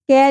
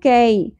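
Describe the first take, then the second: First: The vowel is a long ee sound. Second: The vowel is a soft ay glide. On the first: The speaker calls it wrong. "کی نہیں پڑھنا" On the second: The speaker calls it right. "یالین نرمی سے ہوگا ادا"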